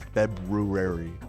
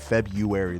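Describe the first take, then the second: First: The R after the B is pronounced. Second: The R after the B is dropped. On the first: "than February" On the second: "it's just easier to say February"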